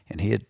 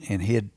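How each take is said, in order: Both takes have the same delivery.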